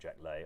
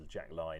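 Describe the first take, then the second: First: The surname's vowel sounds like 'day'. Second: The surname's vowel sounds like 'eye'. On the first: The speaker calls it wrong. "not Jack Lay" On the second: The speaker calls it right. "It is Jack Lai"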